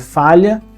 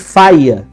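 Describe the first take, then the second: First: The middle consonant is a palatal L sound. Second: The middle consonant is a plain Y sound. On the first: This is the standard pronunciation. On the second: This is the non-standard pronunciation.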